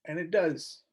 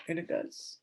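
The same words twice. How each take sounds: First: Said in the usual way. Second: Breathy whisper, no voice. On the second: Real, not acted. Vlogger agreeing with herself in a whisper. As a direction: say it under your breath.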